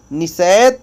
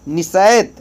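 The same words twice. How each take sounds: The two takes are said the same way.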